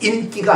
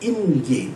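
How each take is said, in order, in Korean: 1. 중간 자음은 경음이에요. 'kk'처럼요. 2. 중간 자음은 평음이에요. 'g'처럼요. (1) "인기라고 하는 것은 그저 세상에서 남들이 야야야 할 때 그거 인기고" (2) "이건 인기는 뭐냐면은 사람이 주는 기운이에요"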